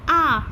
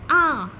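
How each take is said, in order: First: The r sound is dropped, British style. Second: The same.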